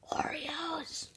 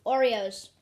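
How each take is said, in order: First: Breathy teaser whisper. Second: Said in the usual way. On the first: Acted. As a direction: whisper it like a secret. Teasing the topic in a whisper.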